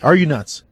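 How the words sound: It is read in a mocking, teasing voice.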